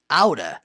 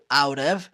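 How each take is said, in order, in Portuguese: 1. As palavras são reduzidas e ligadas, soando como 'aura'. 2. Ambas as palavras são pronunciadas por completo e separadamente. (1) "falando rápido, pode ser pronunciado ... aura" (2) "pode ser pronunciado out of"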